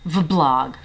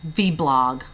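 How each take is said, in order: First: "vblog" said as "vuh-blog"; schwa pronunciation. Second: "vblog" said as "vee-blog"; letter-name pronunciation. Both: Shown as a demonstration. Trying two ways to say vblog.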